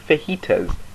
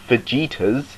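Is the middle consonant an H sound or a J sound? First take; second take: H sound; J sound. First: The middle consonant is an H sound. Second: The middle consonant is a J sound. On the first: The speaker calls it right. "they just say; It's a H, not a J" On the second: The speaker calls it wrong. "No one pronounces it"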